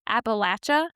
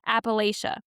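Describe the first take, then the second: First: It uses the traditional local regional pronunciation. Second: It uses the academic, national-style pronunciation. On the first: Many lifelong residents of the region use this form. "many lifelong residents use the traditional Appalachia" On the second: Academic and national circles prefer this form. "particularly in academic or national circles, prefer Appalachia"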